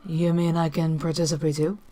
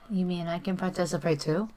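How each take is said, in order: First: It is said imitating the Rover's English voice. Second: It is said in the speaker's own natural voice.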